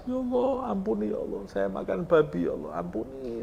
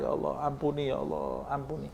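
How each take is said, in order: First: High, wailing plea that fades away; crying prayer. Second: Soft, fading plea for forgiveness; tearful prayer. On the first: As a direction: wail to God for forgiveness, half sobbing. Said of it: "makan sama nangis". (meratap memohon ampun, suara tinggi) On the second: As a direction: beg quietly, as if near tears. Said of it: "Sehingga kamu menangis". (doa lirih penuh penyesalan) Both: Acted.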